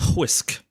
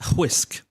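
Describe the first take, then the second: First: An h sound comes before the w. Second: An h sound comes before the w.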